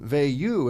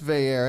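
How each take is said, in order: First: The name is pronounced with French sounds. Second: The name is pronounced as English spelling suggests. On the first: "the French pronunciation is often Veilleux" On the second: "when you look at it in print, that suggests Veilleux"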